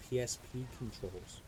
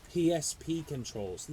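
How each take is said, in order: First: Said in the usual way. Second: "P S P controls" said slowly, each letter stressed and louder; savoring "P S P controls" letter by letter; slow emphatic PSP controls. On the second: Shown as a demonstration. To the viewers, hyping the console: slow stressed "P S P controls". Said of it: "Listen to me".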